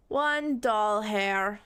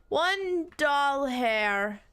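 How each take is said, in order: First: Said in the usual way. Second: Drawn-out, lifted first word; One drawn out high and slow; mock grand read. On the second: Shown as a demonstration. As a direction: stretch ONE slowly upward.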